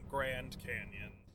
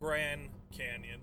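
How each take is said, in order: First: The first word ends with a clear D sound. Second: The first word ends without a D sound. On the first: "not Grand Canyon" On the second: "they dropped the D"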